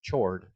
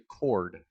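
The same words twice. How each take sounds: First: The word begins with a ch sound. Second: The word begins with a k sound. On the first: The speaker calls it wrong. "It is not chord" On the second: The speaker calls it right. "It is a chord"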